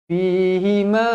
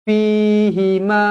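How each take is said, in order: The two takes are said the same way.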